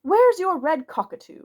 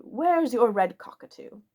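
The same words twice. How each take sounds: First: Higher, louder sudden demand; suddenly cries out to Barker; sudden outburst. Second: Said in the usual way. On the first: A narrator's reading. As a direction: blurt it out at Barker all at once. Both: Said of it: "said Oberon Quinn suddenly".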